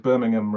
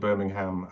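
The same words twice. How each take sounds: First: It is said with a British pronunciation. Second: It is said with an American pronunciation. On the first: It refers to the city in England. "Birmingham in the West Midlands in England" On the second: It refers to the city in Alabama. "rather than Birmingham, Alabama"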